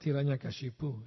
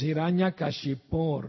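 First: The word ends without an r sound. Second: The word ends with an r sound. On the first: The speaker calls it wrong. "not Hiranyakashipu" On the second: The speaker calls it right. "it's Hiranyakashipur Bhakshaha"

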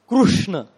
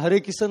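First: The name keeps the r and ends in a. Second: The r is dropped and it ends in san. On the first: "Maharashtrian devotees chant Krishna" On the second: "they call Kisan"

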